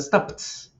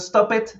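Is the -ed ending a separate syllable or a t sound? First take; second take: t sound; separate syllable. First: The ending is a single t sound. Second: The ending is said as an extra syllable. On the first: The speaker calls it right. "digo stopped" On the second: The speaker calls it wrong. "Yo no digo stop it"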